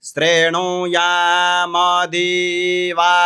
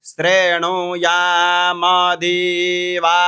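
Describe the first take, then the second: The two takes are said the same way.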